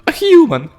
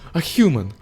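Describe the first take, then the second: First: It is said in a put-on character voice. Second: It is said without that put-on character voice.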